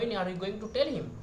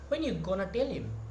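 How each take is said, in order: First: 'Going to' is said in full. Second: 'Going to' is reduced to 'gonna'.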